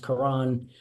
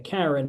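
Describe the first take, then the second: First: The second syllable sounds like 'ran'. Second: The second syllable sounds like 'ren'. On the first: It is how the fighter's name is actually said. The speaker calls it right. "His name is pronounced Karan" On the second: It is the joking, common-name way of saying it. The speaker calls it wrong. "as much fun as we all had with it that Boots was fighting a Karen"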